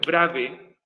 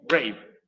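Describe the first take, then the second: First: The word is split into two syllables. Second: The word is said as one syllable. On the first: The speaker calls it wrong. "ni tampoco es brave" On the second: The speaker calls it right. "es brave"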